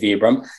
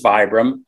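First: The name is said the traditional European way. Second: The name is said the common American way. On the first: This is how it is said in Europe. "if you traveled in Europe, they would traditionally say Vibram" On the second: This is how many people in America say it. "A lot of people here pronounce it as Vibram"

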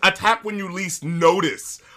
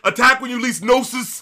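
First: The last word is said clearly as notice. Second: The last word is slurred to sound like noses. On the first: The speaker calls it right. "like the word is" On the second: The speaker calls it wrong. "but he goes"

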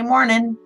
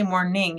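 First: The word ends without the final g sound. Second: The word ends with a full final g sound. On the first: The speaker calls it right. "And you drop the G" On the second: The speaker calls it wrong. "You don't say morning"

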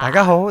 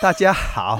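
First: It is said in Cantonese. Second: It is said in Hokkien.

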